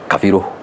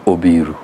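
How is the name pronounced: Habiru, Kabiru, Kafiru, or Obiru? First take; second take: Kafiru; Obiru. First: The name has an f sound after ka. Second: The name begins with an o vowel. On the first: This is how the central region says it. "in Central they say Kafiru" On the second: This is how the Nyanza region says it. "In Nyanza we remove the K and A. We put an O"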